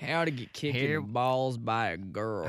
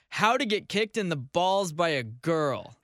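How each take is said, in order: First: It is read in a Southern US accent. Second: It is read in a plain, neutral accent.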